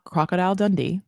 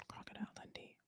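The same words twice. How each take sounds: First: Said in the usual way. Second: Barely audible whisper; very soft, voiceless echo; whispered aside. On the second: Real, not acted. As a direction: whisper the name to yourself. Repeats the name under breath.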